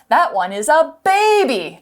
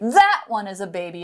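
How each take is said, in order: First: The stress falls on the word baby. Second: The stress falls on the word that. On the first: It is a baby, not an adult. "not an adult" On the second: The other one, not this one, is a baby. "it means not this one"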